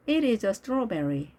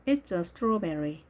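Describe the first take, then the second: First: IT IS said as two words, uncontracted; careful model reading with separate "It is"; full form. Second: IT'S as one syllable; contracted form. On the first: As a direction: say "It is" in full, slowly. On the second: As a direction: join "It's" to "a" as one unit. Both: Shown as a demonstration.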